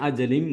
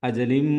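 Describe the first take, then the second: Both takes have the same delivery.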